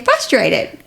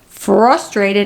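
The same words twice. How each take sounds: First: The R sounds are dropped, New York style. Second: The R sounds are fully pronounced.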